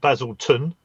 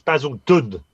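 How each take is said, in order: First: The middle consonant is a T sound. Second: The middle consonant is a D sound. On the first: The speaker calls it wrong. "not Basilton" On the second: The speaker calls it right. "It hasn't got a T in it"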